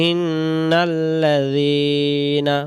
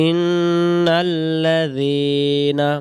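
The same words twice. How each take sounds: No difference in how they are said.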